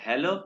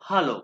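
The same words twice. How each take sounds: First: It is said with an English pronunciation. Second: It is said with a German pronunciation. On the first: The speaker calls it wrong. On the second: The speaker calls it right.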